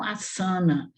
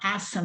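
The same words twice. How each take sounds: First: The stress is on a later syllable. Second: The stress is on the first syllable. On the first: The speaker calls it wrong. "e não asana" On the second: The speaker calls it right. "olha o A forte está aqui, por isso que a gente fala asana"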